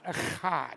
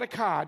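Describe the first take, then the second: First: The middle sound is a throaty ch. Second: The middle sound is a hard k. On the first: The speaker calls it right. "it's a chad" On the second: The speaker calls it wrong. "It's not a cod"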